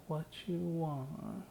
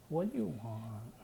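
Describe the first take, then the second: First: Said in the usual way. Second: Put-on slow, lightly babyish ask; a hint of baby talk, drawn out. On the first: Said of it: "But I'm saying it in". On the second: Shown as a demonstration. Exhausted teammates at night, asking in a mild baby voice. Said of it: "like, a baby voice, a Colin Elizabeth voice".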